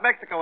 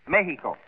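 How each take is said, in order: First: The x sounds like ks. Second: The x sounds like an h. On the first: The speaker calls it wrong. "not Mexico" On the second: The speaker calls it right. "You make the X sound like an H"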